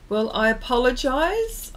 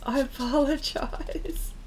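First: Said in the usual way. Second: Breathy giggle through the word; sheepish laughing apology; laughing whispered apology. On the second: Real, not acted.

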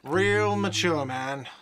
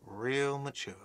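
First: Whiny shout. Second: Soft sulky mutter. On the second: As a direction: grumble it under your breath. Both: Acted. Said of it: "a whiny voice shouts".

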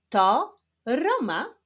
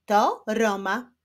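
First: Slow teacher's reading, each word separate. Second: A slightly brisker careful reading; quicker reading. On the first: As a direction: read it slowly for beginning readers. (wolne, wyraźne czytanie) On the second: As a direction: read clearly, with shorter pauses. (nieco szybsze, wyraźne czytanie) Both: Shown as a demonstration. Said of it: "ale w szybszym tempie".

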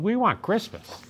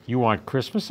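First: High, pleading troll wail. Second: Narrator's own voice, lightly puzzled rise; puzzled question. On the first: Trolls begging the child, high wail. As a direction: whine it like a longing troll. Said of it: "they wailed". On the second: Child puzzled by the trolls, mild questioning. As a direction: ask back, mildly confused. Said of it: "I asked, puzzled". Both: A narrator's reading.

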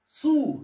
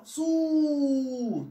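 First: Said in the usual way. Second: Long, steady hold on the vowel of صو; drawn-out vowel. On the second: Shown as a demonstration. Teacher shows pupils a longer syllable, صو with the vowel drawn out. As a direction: stretch صو out into one sustained "oo". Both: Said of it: "طب كده أطول بقى".

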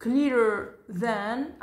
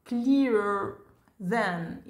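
First: Clearer than drawn out slowly; slow teacher demo; slow model reading. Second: Said in the usual way. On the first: Shown as a demonstration. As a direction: stretch it for learners to copy. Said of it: "إذن clear". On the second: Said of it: "نكتبها ونضع ونضيف إي آر".

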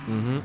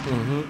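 No difference in how they are said.

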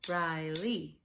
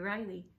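First: Riley in two firm beats, Ri-ley; syllable by syllable. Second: Said in the usual way. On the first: Shown as a demonstration. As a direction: tap out both syllables of Riley. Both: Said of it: "Two syllables in Riley".

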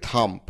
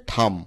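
First: থাম্ব with a stop sounded after M; mispronounced থাম্ব. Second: থাম with a silent B; correct pronunciation. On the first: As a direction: say থাম্ব as spelled, closing after the M. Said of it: "থাম্ব উচ্চারণটাও সঠিক নয়". (থাম্ব, শেষের ব্যঞ্জন উচ্চারণ করে) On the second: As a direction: say থাম ending cleanly on M. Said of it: "সঠিক উচ্চারণ হচ্ছে". (থাম, ব অনুচ্চারিত) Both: Shown as a demonstration.

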